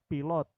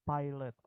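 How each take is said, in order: First: It is pronounced as written, the Indonesian way. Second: It is pronounced with English vowels and sounds. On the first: "Ini kan tulisannya adalah pilot. Oke, itu bahasa Indonesia" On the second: "Tapi kalau bahasa Inggris"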